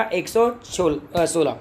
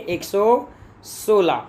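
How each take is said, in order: First: Said in the usual way. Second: एक सौ सोलह stretched out slowly, each number laid down; teacher dictating एक सौ सोलह slowly; slow emphatic answer. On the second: Shown as a demonstration. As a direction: drag out एक सौ सोलह so students can write it.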